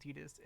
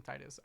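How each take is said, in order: First: "Tidus" said with a D, TEE-dus; the name "Tidus" with a soft d sound; saying Tidus. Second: "Titus" said with a hard T, TIE-tus; the name "Titus" with a crisp t in the middle; saying Titus. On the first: Streamer naming the hero the official way, Tidus. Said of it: "I hate saying Tidus". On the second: Streamer naming the hero her preferred way, Titus. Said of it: "I like saying Titus". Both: Shown as a demonstration.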